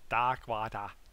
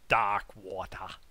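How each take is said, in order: Both takes have the same delivery.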